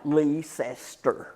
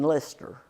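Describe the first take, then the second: First: The word is said with three syllables. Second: The word is said with fewer than three syllables. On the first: This is how it is said locally. "there's three syllables in that word" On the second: This is how it is said in Britain. "by the British pronunciation"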